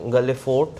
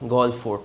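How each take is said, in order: First: The first word has two syllables, gaa-le. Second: The first word has one syllable, gall. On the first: The speaker calls it wrong. "Not গালে" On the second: The speaker calls it right. "Actually গল বলে"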